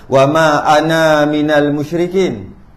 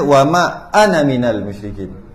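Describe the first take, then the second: First: The last vowel of 'ana' is drawn out long. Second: The last vowel of 'ana' is kept short. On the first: The speaker calls it wrong. "Ada yang baca" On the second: The speaker calls it right. "walaupun ana tu ana ada alif tu, tapi baca baca dia"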